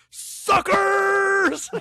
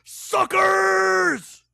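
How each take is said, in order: First: High, far-off shouted Suckers; Scorpion voice. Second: High shouted Suckers, louder; Scorpion voice. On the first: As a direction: yell it like a cheesy ninja villain. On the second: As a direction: repeat the cheesy ninja yell. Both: Retold or imitated. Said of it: "in this Scorpion voice".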